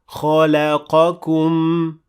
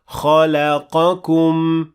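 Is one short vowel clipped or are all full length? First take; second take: clipped; full. First: One short vowel is clipped short. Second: All short vowels have equal full length. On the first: The speaker calls it wrong. "The second one is the wrong one" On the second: The speaker calls it right. "The first one is indeed the correct recitation"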